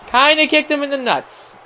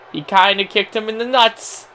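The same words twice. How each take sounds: First: Higher, incredulous repeat; amused repeat. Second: Said in the usual way. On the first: Shown as a demonstration. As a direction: say it again in disbelief, pitched higher.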